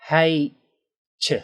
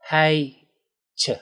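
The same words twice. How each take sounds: The two takes are said the same way.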